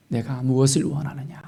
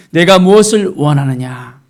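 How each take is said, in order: First: Softer, subdued question; hushed question. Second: Loud, weighty question; solemn question. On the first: Jesus asking the blind man, hushed question. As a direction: ask it quietly, letting it sink in. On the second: Jesus asking the blind man, solemn loud question. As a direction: put the question out with full voice. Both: Retold or imitated.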